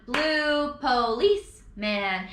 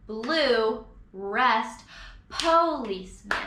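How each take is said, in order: First: "Blue policeman" run together with no rest; wrong rhythm. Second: "blue", a spoken "rest", then "policeman"; right rhythm. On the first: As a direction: stress "police" straight after "Blue". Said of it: "put the emphasis". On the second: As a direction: leave a full beat after "blue". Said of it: "give it that full beat of rest". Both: Shown as a demonstration.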